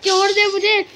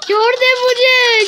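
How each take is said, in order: First: Said in the usual way. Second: Slow, high, loud begging; wailing plea. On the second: Real, not acted. Gamer pleading with the flower to release him, loud wail. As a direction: cry out let me go.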